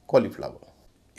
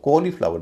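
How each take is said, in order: First: The first vowel is a short o. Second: The first vowel is a long o. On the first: The speaker calls it right. "लंबा ओ नहीं है, छोटा ओ है" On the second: The speaker calls it wrong. "जिसको कॉलीफ्लावर नहीं कहेंगे"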